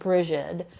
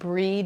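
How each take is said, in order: First: The name is said as two syllables. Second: The name is said as one syllable. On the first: "Sometimes people pronounce it Brigid" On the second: "it's pronounced breed usually"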